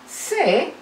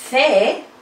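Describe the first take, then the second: First: The consonant is a hissing s sound. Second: The consonant is a th sound, tongue between teeth. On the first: This is how Latin America and parts of southern Spain say it. "lo pronunciamos con ceseo" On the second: This is how most of Spain says it. "tiene un sonido interdental, muy parecido al sonido T H del idioma inglés"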